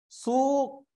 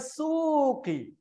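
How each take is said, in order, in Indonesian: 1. Kata itu berakhir dengan konsonan, tidak ada vokal. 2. Kata itu berakhir dengan bunyi vokal. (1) "saya tidak bunyikan huruf akhirnya" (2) "sebutkan harakah harakah akhirnya"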